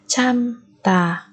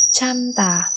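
First: Slow 참다 with a gap; syllable by syllable. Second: Said in the usual way. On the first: Shown as a demonstration. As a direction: split 참다 into two beats. Teacher splits word by syllable. (đọc chậm 참다 từng âm tiết)

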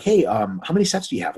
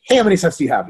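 First: Casual polite ask. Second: Pouncing, louder and higher; too eager. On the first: Asking a resting lifter about sets, casual and polite. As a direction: ease into the question politely. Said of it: "give people the breathing room". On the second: Pouncing on a lifter right after the set, too eager. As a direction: jump in on them with no breathing room. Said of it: "right after the set". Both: Acted.

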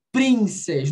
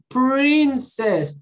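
First: "princess" with a Brazilian tapped R; quick tap after P in "princess"; wrong R. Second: PRINCESS high, with a strong curled R; "Princess" with a held retroflex R; English R. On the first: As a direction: PRINCESS said the Portuguese way. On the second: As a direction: lean slowly on the "pr" of "Princess". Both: Shown as a demonstration. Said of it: "Eu não falei princess".

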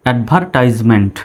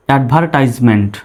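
No difference in how they are said.

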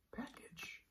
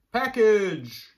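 First: Package whispered softly. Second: Said in the usual way. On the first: Shown as a demonstration. Teacher whispering Package to the class, softly. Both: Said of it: "let's go through our words".

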